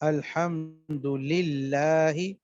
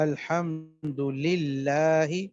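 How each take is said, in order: First: The L sound is light and thin. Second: The L sound is light and thin.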